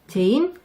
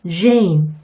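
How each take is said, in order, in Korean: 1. 한국어 ㅈ 소리로 시작해요. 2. 영어 j 소리로 시작해요. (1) "이렇게 부르지 마세요" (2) "이렇게 발음하시는 게 훨씬 원어민들이 이해하기 쉬운 소리예요"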